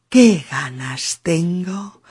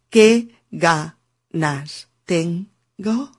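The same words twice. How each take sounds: First: The words flow together in one linked unit. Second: Each word is said separately, without linking. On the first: The speaker calls it right. "sino que digo qué ganas tengo" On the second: The speaker calls it wrong. "yo no digo qué ganas tengo, que sería un ritmo sin enlaces"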